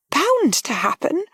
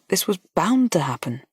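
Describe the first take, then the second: First: Higher, slow, disbelieving question; young lady echoing in disbelief, higher; startled echo. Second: Said in the usual way. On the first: A narrator's reading. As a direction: repeat it as if stunned. Harriet echoes in disbelief.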